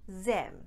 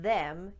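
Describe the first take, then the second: First: The word begins with a z sound. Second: The word begins with a voiced th sound. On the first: "you might hear them" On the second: "instead of them"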